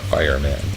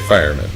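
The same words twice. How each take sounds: First: It is said as two separate words. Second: It is said as one word, like a job title. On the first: It names a man made of fire. The speaker calls it wrong. "not fireman" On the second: It names a job. The speaker calls it right. "You say fireman"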